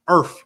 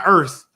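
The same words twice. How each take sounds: First: It is said with an African American pronunciation. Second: It is said with a standard pronunciation. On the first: The speaker calls it right. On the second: The speaker calls it wrong. "Not earth"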